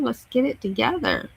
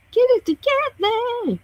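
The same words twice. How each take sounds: First: Said in the usual way. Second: Squeaky mock exasperation; exasperated high plea. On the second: Real, not acted. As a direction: plead with the phone, pitched up. Urging a slow phone.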